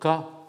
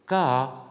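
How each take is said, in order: First: The word is said on a mid tone. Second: The word is said on a gliding tone. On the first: It means a wound. "ton moyen" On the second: It means only. "un ton modulé"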